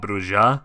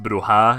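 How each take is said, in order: First: The middle consonant is a J sound. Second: The middle consonant is an H sound. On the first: The speaker calls it wrong. "and not Broja" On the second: The speaker calls it right. "it's pronounced Broha"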